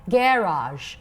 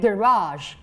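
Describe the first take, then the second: First: It has the British English stress pattern. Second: It has the American English stress pattern. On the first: "Garage in British English" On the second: "Garage in American English"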